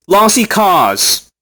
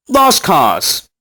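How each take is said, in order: First: "Lossy cause" read slowly, just as it is spelt; mock reading of the typo "Lossy". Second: Said in the usual way. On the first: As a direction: drag out "Lossy" as it is misspelt.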